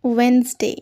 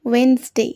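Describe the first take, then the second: No difference in how they are said.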